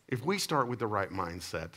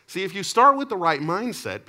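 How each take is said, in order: First: Said in the usual way. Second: "start" hit hard, much higher and louder; preached emphasis. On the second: Real, not acted. Pastor driving home the lesson to the congregation, loud and high. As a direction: preach it out, full force on "start".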